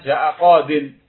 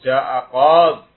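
First: The last word ends with a full 'din' sound. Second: The last word stops short on a bare 'd'. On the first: This is the form used when the speech continues. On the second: This is the form used when pausing at the word. "Ketika waqaf"

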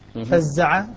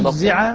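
First: The first syllable has an a vowel. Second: The first syllable has a u vowel. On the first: The verb is in the active voice. "بفتح الفاء والزاي مبنيا للفاعل" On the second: The verb is in the passive voice. "مبنيا للمفعول"

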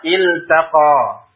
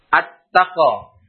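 First: The L is pronounced clearly before the T. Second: The L is merged into a doubled T.

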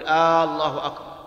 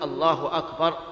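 First: The opening vowel of Allah is stretched long. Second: No vowel is stretched; the phrase sounds normal. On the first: The speaker calls it wrong. "يمد الهمزة فيقول" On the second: The speaker calls it right. "لا بد أن يقول الله أكبر"

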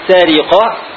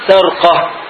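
First: First vowel a, then an i after r. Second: First vowel a, no vowel after r. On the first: "فتح السين مع كسر الراء" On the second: "أو سكونها"

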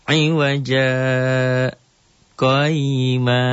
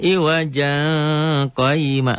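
First: There is a brief stop between the words. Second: The two words run together without a stop. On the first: The speaker calls it right. "berhenti sebentar dengan tidak ngambil napas" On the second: The speaker calls it wrong. "jangan iwaja qayma"

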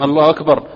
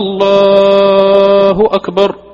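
First: The opening vowel of the first word is short. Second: The opening vowel of the first word is lengthened. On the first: It states that God is greatest. The speaker calls it right. "نقول نعم الله أكبر" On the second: It asks whether God is greatest. The speaker calls it wrong. "فحولته من الإثبات إلى الاستفهام"

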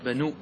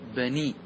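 First: The vowel before the ending is an u sound. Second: The vowel before the ending is an i sound. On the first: The speaker calls it wrong. "فلا تقول بنو بنو" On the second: The speaker calls it right. "اكسر الضمة، تقول إيش؟ بني"

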